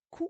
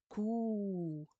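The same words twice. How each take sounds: First: "ku" with a short u; short "ku" without lengthening; short vowel. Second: "ku" with the u held long; sustained, drawn-out "ku"; long vowel. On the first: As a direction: say "ku" as one brief syllable. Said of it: "avec la dhamma". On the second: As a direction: stretch out the u in "ku". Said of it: "Avec les longues voyelles". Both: Shown as a demonstration.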